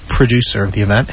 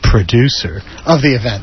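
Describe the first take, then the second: First: It is said in a plain, neutral tone. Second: It is said with an ironic, air-quote inflection. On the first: "that was air quotes" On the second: "that's my air quotes for you without vision"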